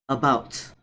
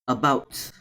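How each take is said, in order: No difference in how they are said.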